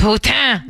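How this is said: The word is said with a French pronunciation. The speaker keeps the original language's pronunciation.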